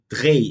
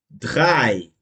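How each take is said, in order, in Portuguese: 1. A vogal é dita como e e i separados. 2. A vogal é dita como um único som 'ai'. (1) "eu não falo" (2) "vai ter som de A I"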